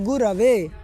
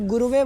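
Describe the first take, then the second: First: The second syllable has the vowel a. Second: The second syllable has the vowel u. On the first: The speaker calls it right. "वहाँ गुरवे" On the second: The speaker calls it wrong. "गुरुवे कोई रूप ही नहीं होता"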